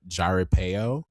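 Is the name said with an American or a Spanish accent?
American. The name is said with an American accent. "I'm gonna pronounce it Americanly"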